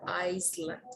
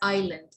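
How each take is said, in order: First: The s sound is pronounced. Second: The s sound is silent. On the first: The speaker calls it wrong. "it's not an Iceland" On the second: The speaker calls it right. "It's island, That is a silent"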